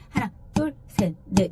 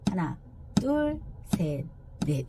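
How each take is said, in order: First: The counting is fast. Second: The counting is at a moderate speed.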